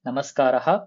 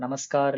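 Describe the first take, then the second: First: The word ends with a breathy h after a. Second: The word ends on a bare r sound. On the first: The speaker calls it right. "கரெக்ட்டா அந்த விசர்கா வரைக்கும் pronounce பண்ணணும்" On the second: The speaker calls it wrong. "நமஸ்கார் இல்ல நமஸ்காரா அது மாரி தேவையில்ல"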